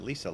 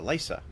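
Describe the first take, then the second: First: Lisa said LEE-sa, with a long ee in the first syllable. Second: Lisa said LYE-sa, first syllable rhymes with eye. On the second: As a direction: say Lisa as LYE-sa, a slight rise at the end. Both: Shown as a demonstration. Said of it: "How do you say it?".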